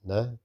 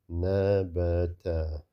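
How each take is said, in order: First: "nabata" as three short syllables with gaps; short sounds. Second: "nabata" with every vowel drawn out long; wrongly long. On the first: Teacher corrects the long reading, short sounds. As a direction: keep each vowel of "nabata" short, syllables apart. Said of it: "these are short sounds". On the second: Teacher shows learners what not to read, long sounds. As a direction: stretch "nabata" into naa-baa-taa. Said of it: "That's long". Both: Shown as a demonstration.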